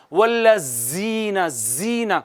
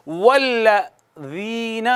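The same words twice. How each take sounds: First: والذین said with a hard, hissing ز instead of soft ذ; wrong hissing pronunciation. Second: والذین with a soft th-like ذ, tongue on upper teeth; correct soft ذال. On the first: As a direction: say زین with a whistling z sound. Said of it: "اس کو یوں نہیں پڑھنا". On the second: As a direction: say والذین slowly with a gentle ذ, no hiss. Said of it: "اور اس کو یوں پڑھیں گے". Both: Shown as a demonstration.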